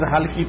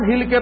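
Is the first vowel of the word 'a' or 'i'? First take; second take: a; i. First: The word is said as 'halki' with 'a'. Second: The word is said as 'hilke' with 'i'. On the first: The prayer should be performed light and short. The speaker calls it right. "আসলে আছে কি ফেকা Mohammad" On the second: The prayer should be performed shaking. The speaker calls it wrong. "ওই হালকিটাকে হিলকে বলছে"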